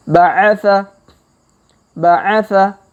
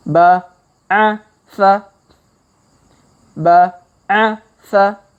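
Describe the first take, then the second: First: Ba'atha run together in one quick word; faster reading. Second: Ba, a, sa spaced out syllable by syllable, with long gaps; slow reading. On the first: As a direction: read it fluently at speed. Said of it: "Kalau dipercepat". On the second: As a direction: sound each syllable slowly, pausing between them. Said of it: "kita baca pelan-pelan". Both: Shown as a demonstration.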